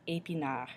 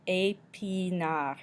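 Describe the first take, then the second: First: Said in the usual way. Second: "Épinard" slowly stretched as ay, pee, nar; slow teaching demo of "Épinard"; syllable by syllable. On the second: Shown as a demonstration. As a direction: draw out each syllable of "Épinard". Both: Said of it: "makes the A".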